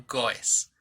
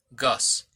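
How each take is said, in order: First: "goes" pulled apart as "go-es"; emphasized ending. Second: "goes" run together as one syllable; correct pronunciation. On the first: Teacher showing students the spelling, exaggerated "goes" as "go-es". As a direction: overarticulate "goes" in two syllables. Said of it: "lo estoy enfatizando para que te des cuenta". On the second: Teacher contrasting for students, correct one-syllable "goes". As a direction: say "goes" normally, like "gohz". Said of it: "La pronunciación correcta es goes". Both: Shown as a demonstration.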